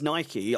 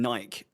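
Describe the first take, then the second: First: The word ends with an ee sound. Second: The word ends without an ee sound. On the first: This is how the creator says it. The speaker calls it right. "I know it's Nike" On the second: This is how people around here usually say it. The speaker calls it wrong. "I'm just so used to saying Nike on a daily basis"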